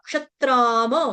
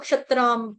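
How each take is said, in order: First: The m sound is full, with its vowel. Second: The m sound is clipped, without its vowel. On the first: The speaker calls it right. "म पूरा है" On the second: The speaker calls it wrong. "इसको क्षत्राम नहीं बोलेंगे"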